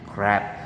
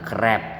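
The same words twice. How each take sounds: First: The R is soft, English-style. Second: The R is strong, Indonesian-style. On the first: The speaker calls it right. "crab bukan crab" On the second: The speaker calls it wrong. "bukan crab"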